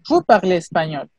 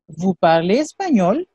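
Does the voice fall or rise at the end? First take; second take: fall; rise. First: The voice falls or stays level at the end. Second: The voice rises at the end. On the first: It is a statement. "C'est une affirmation" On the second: It is a question. "augmente l'intonation"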